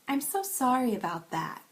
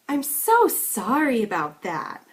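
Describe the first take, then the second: First: The pitch rises on so, then drops low. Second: The pitch goes very high with strong stresses. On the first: The apology is genuine. "Now listening to it again as sincere" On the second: The apology seems overdone and hard to believe. "An exaggerated version of this would go a bit higher than the sincere version and would have stronger stresses"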